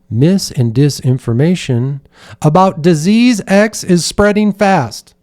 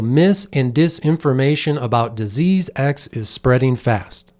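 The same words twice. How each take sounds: First: It starts quiet and low, then ramps up loudly. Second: The whole sentence is said in a flat monotone. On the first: "She started the sentence where she said mis and disinformation about very quietly" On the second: "when you hear that in a very monotone way"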